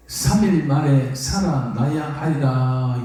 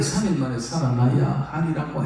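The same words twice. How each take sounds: First: "삼 일 만에 살아나야 하리라" drawn out slowly, 삼 stressed; solemn slow emphasis on the promise of rising; slow, weighty quote. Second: Said in the usual way. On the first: Shown as a demonstration. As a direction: lean on 삼 and stretch out every word. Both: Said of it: "요 말을부터는 귀에 들어오지 않았습니다".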